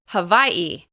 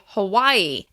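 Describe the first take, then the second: First: A glottal stop comes before the last syllable. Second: No glottal stop comes before the last syllable. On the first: This is how native speakers of the islands say it. "native Hawaiians say Hawaii. You'll hear a glottal stop before the last syllable" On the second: This is how people from the mainland say it. "you'll hear mainland Americans say Hawaii"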